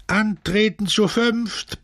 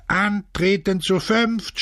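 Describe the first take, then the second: First: High, drawn-out roar of command; slow, high-pitched bellow; bellowed order. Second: Slow, high drill call; high, stretched parade command; shouted order. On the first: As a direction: outdo the last caller, stretching each word. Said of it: "brüllte der Barackenälteste". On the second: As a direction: call it to the back, drawn out. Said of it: "schrie er nach hinten". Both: A narrator's reading.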